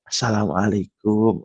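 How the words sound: It is said softly with a drawn-out, lilting melody. The speaker calls it wrong. "Coba kalau adanya didayu-dayukan"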